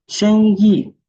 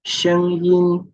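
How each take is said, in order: First: "Shengyi" loud and high, with no final n; teacher exclaims "Shengyi" to set it apart; contrast word, loud. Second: "Shengyin" high, ending on a clear n; teacher marks the n in "Shengyin"; contrast word. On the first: Teacher contrasting two similar words, loud. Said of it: "qui veut dire business". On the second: Teacher contrasting two similar words for learners. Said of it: "qui veut dire la voix". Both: Shown as a demonstration.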